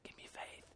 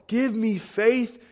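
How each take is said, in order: First: It is whispered quietly. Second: It is shouted loudly.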